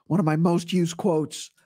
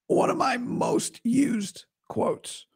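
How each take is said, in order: First: Said in the usual way. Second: Raised pitch, slow and careful; slow, higher pitched take of "one of my most used quotes"; higher voice to sound better. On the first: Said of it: "if I talk like this". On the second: Shown as a demonstration. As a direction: lift the voice up to spare it. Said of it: "if I talk like this, sounds a little better".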